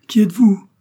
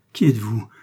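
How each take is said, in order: First: Loud, high-pitched astonished cry; overwhelmed outburst of a question; exclaimed question. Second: First startled question, only mildly raised; restrained astonished cry; exclaimed question. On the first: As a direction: cry it out, far higher and louder. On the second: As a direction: ask it stunned, still holding back. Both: A narrator's reading. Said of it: "s'écria-t-il en joignant les mains".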